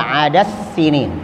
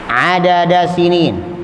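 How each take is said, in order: First: The d merges into the following s. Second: The d is pronounced clearly before the s. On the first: The speaker calls it wrong. "tidak dibaca adas sinin" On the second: The speaker calls it right. "Begitu pula adada sinin"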